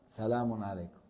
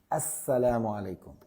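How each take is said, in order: First: The greeting begins directly with 'sa', no article. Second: The greeting begins with 'as', the article assimilated. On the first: The speaker calls it wrong. "c'est pas valable" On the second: The speaker calls it right. "حرف شمسي tu dis as"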